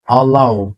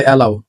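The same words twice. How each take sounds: First: অ্যালাউ opened with a light "uh"; correct pronunciation. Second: অ্যালাউ opened with a full "ae"; mistaken pronunciation. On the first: Teacher correcting learners, অ্যালাউ as uh-lau. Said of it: "কি হবে". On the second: Teacher quoting what we say, অ্যালাউ with strong ae. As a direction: say অ্যালাউ as "AE-lau". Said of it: "আমরা বলি". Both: Shown as a demonstration.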